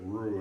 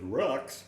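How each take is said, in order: First: The word ends in a plain vowel sound. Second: The word ends with a sounded ks. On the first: The speaker calls it right. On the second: The speaker calls it wrong.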